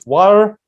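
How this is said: It is said in an American accent. "American English water"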